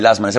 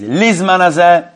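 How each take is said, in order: First: The first word begins with an 'la' sound. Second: The first word begins with an 'li' sound. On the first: "generally people say lazman hazeh" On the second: "the right way of saying it is lizman hazeh"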